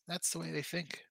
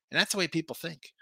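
First: Softer, trailing repeat to himself; quiet repeat. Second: Said in the usual way. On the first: Shown as a demonstration. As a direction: drop it to a mutter, half to yourself.

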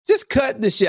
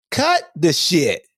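First: Just hit higher, then fall; a sharper second scolding; punchy repeat with stress on Just. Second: Slow, heavy scolding; slow firm command. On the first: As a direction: snap it back at them. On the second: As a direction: Cut the shit drawn out slowly, falling. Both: Shown as a demonstration.

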